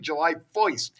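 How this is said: It is said in a New Jersey accent.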